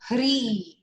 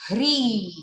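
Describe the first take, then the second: First: The vowel is short. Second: The same.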